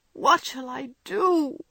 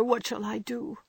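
First: Higher and slow, drawn out in despair; a daughter's slow, despairing repeat; despairing plea, slowed. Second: Higher, pleading question; a girl begging her mother for help; despairing plea. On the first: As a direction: stretch out the plea hopelessly. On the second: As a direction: ask in despair. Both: Acted. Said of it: "cried poor Jo in despair".

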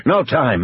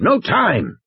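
First: Brisk rejection, slightly raised pitch; lightly impatient game warden; firm dismissal. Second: High, emphatic rejection; impatient, insistent game warden; emphatic dismissal. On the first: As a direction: dismiss the plan outright. Muldoon rejects the plan. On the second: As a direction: hammer the objection home, pitched up. Muldoon repeats his objection. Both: Acted.

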